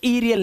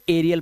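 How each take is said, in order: First: The first vowel is a long 'ee' sound. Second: The first vowel is an open 'eh' sound. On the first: The speaker calls it wrong. "अब इसे ईरियल नहीं पढ़ोगे" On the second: The speaker calls it right. "अब इसे एरियल पढ़ोगे"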